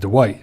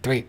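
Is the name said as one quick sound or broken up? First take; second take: broken up; one sound. First: The name is said slowly, broken into parts. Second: The name is said quickly as one smooth syllable. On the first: "I just can't help to break it up as" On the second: "if I say it fast"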